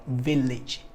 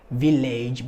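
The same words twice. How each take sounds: First: Said in the usual way. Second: "village" as VIL-AYJ, ending like "age"; wrong full-vowel ending. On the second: Shown as a demonstration. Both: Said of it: "but village".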